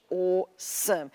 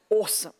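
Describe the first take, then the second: First: Slow, understated "awesome" in proper Australian English; proper Australian accent, slow and dignified; distinguished colonial English. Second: Distinguished, proper Australian "Awesome"; understated, distinguished Australian English; proper colonial English. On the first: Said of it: "It's very distinguished". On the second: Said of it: "the proper English from the colonies". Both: Shown as a demonstration.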